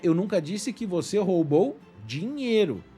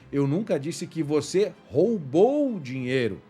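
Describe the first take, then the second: First: The stress is on the word dinheiro. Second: The stress is on the word roubou.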